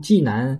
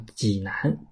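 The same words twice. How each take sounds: First: The first syllable has a high falling tone. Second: The first syllable has a low dipping tone. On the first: The speaker calls it wrong. "读济南好像就是不对了啊，不正规了" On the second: The speaker calls it right. "读赏声呢就是第三声呢就读济水，所以我们说叫济南"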